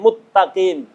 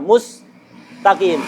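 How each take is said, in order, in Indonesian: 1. S berubah menjadi t, sehingga menjadi t ganda. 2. Bunyi s dipertahankan sebelum t. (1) "Sinnya diganti ta kemudian diidghamkan jadi muttaqim" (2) "Sin dan ta bukan tempatnya idgham karena tidak sama hurufnya"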